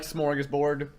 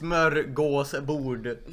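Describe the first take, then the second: First: "smorgasbord" said the English way, with plain o and a; anglicised pronunciation. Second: "smörgåsbord" slowly, with Swedish ö, å and oo-like bord; Swedish pronunciation. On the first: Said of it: "That is wrong as heck". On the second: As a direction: say "smörgåsbord" as a Swede does. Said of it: "It's pronounced". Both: Shown as a demonstration.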